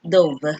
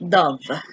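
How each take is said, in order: First: It is pronounced unlike the bird name. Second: It is pronounced like the bird name. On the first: It is the past tense of dive. The speaker calls it right. "since this is the past tense of the word dive, you pronounce it dove" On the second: It names a kind of bird. The speaker calls it wrong. "Do not pronounce this dove. When you say dove, it's the kind of bird"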